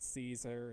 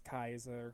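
First: The name begins with a soft S sound. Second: The name begins with a hard K sound. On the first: The speaker calls it wrong. "it's not Caesar" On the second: The speaker calls it right. "They're not actually C's, they're K's"

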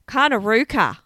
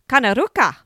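First: It is said in a plain Australian accent. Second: It is said with an Italian-sounding accent. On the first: The speaker calls it right. "Maybe that's better" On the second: The speaker calls it wrong. "I don't know why I said that in Italian accent"

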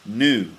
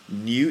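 First: It is said with an American pronunciation. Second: It is said with a British pronunciation. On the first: "In America, they'd say new" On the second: "we say new"

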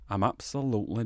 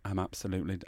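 First: It is said in a put-on Wakefield accent. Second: It is said in the speaker's usual accent.

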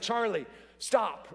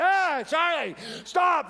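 First: It is said in a calm, even tone. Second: It is said in an alarmed, urgent tone.

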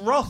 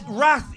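First: The vowel sounds like 'roth'. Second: The vowel sounds like 'rath'. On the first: This is how it is said in this country. "It's Roth in this country" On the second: This is the American way of saying it. "It's an Americanism"

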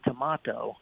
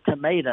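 First: It is said the British way. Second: It is said the American way. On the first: "over in England... they say tomato" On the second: "I say tomato"

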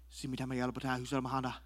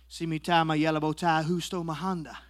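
First: It is said more quickly. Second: It is said at a normal speed.

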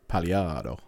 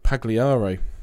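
First: The name is said with an Italian accent. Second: The name is said with an English accent.

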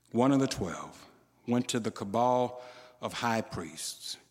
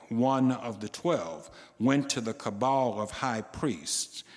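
No difference in how they are said.

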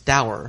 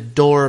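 First: It is said the common modern way. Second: It is said the older, original English way. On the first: "what I always pronounce as dour" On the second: "which is the actual original English way of pronouncing"

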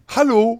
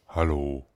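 First: It is said with more enthusiasm. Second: It is said flatly, with little enthusiasm.

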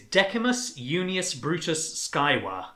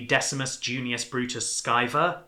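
First: The name uses classical Latin pronunciation. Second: The name uses a modernized pronunciation. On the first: "I'm going to do the proper pronunciation" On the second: "If you want to sort of like make it a bit more modern"

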